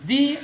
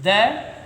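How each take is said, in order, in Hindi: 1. स्वर एक लंबी 'ee' ध्वनि है। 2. स्वर एक छोटी 'uh' ध्वनि है। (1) "ये वोविल है, इससे पहले जो टी एच ई प्रयोग हुआ है इसको हम दी बोलते हैं।" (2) "ये कॉन्सोनेंट है जी, इससे पहले हम इसको द बोलते हैं"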